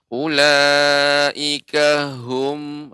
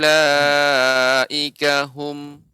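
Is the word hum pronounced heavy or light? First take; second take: heavy; light. First: The word hum sounds very heavy and deep. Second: The word hum sounds lighter, not overly deep. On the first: The speaker calls it wrong. "ini dia terlalu, eee, berat" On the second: The speaker calls it right. "cukup kita pengucapannya hum"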